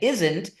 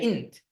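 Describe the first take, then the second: First: Every sound of the word is clearly pronounced. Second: Some sounds are dropped, giving a shortened form. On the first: "instead of saying isn't" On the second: "you often don't enunciate certain phonemes"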